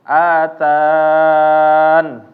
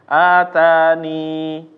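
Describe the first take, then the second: First: The word ends on the consonant n. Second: The word ends in a long i vowel. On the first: "dengan cara membuang ya" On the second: "menetapkan ya, yaitu ya-nya ini menjadi huruf mat"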